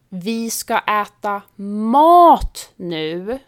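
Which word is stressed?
mat. The stress is on the word mat. We will eat real food, not sweets or snacks. "betyder vi ska inte äta godis eller snacks utan riktig mat"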